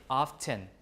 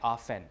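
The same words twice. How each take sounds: First: The T sound is pronounced. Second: The T sound is left out. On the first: "because they see the T written down" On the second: "people usually drop the T"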